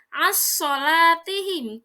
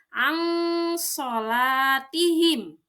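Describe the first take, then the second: First: The n merges completely into the following s. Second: The n sound is hidden and nasalized. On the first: The speaker calls it wrong. "dibaca idgham" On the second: The speaker calls it right. "Ikhfa artinya samar, maka dibacanya"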